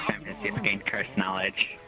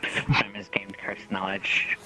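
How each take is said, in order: First: Unvoiced hushed announcement; whispering. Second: Slow unvoiced hushed announcement; slow whisper. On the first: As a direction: breathe it out as a secret. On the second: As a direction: whisper it slowly, drawn out.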